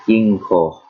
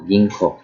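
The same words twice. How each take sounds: First: Ginko slow, with a long final o; emphasized O. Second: Said in the usual way. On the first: Shown as a demonstration. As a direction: stretch and stress the o ending ginko. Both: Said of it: "kinda emphasize the O".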